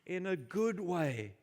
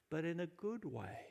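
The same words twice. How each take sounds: First: "good" drawn out, louder and slower; stress on good. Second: Said in the usual way. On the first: Shown as a demonstration. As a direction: lean slowly and firmly on "good". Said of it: "repeated louder, slower". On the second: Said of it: "repeated for emphasis".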